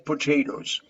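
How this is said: The word is said in an American accent. "but Americans say potatoes"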